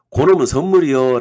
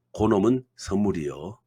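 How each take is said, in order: First: Loud, punched-out catchphrase; emphatic mnemonic. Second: Said in the usual way. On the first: Shown as a demonstration. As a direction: call out the memory phrase louder. Presents a catchy memory phrase.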